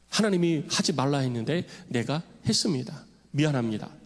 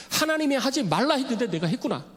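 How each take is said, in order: First: Lower, sober voice asking forgiveness; humble confession. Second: Dismayed realization. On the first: Paul confesses to God, humble sincere apology. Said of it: "용서를 구한 거죠". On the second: Paul realizes he cursed the high priest, dismayed exclaim. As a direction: gasp out the realization of a blunder. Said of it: "아이고야, 실수했구나". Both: Retold or imitated.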